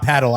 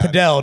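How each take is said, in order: First: It is said like the English word paddle. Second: It is said the sport's way, as padel. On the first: The speaker calls it wrong. "not paddle" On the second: The speaker calls it right. "Padel, not paddle"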